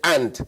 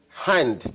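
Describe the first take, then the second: First: The word begins directly with the vowel. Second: The word begins with an h sound. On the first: The speaker calls it wrong. "but will say and" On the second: The speaker calls it right. "who will not say hand"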